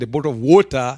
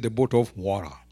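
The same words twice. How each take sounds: First: Water is said with a crisp British-style t. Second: Water is said with a soft American-style t. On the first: "in English we say from Africa, water" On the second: "When it comes here, because of the long journey, someone is tired"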